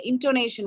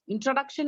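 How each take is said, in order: First: "intonation" said as in-to-NAY-shun; correct word. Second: "Introduction" said as in-tro-DUC-shun, the word to reject; wrong word. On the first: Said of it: "Introduction नहीं है, intonation". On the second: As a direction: cite "Introduction" as the mistaken word. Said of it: "Introduction नहीं है". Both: Shown as a demonstration.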